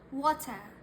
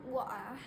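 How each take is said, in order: First: The middle T is pronounced clearly. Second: The middle T is dropped or swallowed. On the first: The speaker calls it right. "the T is very specifically pronounced" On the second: The speaker calls it wrong. "It's not water. That's the Cockney accent"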